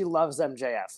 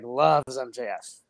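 First: Said in the usual way. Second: "loves" drawn out slowly for emphasis; stress on "loves". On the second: Real, not acted. Telling co-host how much friend adores MJF, "loves" stretched emphatically. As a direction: lean long and hard on "loves".

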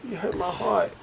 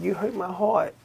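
First: Put-on high, soft hurt little kid; mock heartbroken kid. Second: Put-on little kid voice. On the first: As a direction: whimper it like a hurt child. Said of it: "I wanted to say that shit". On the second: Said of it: "the little kid, he was like".

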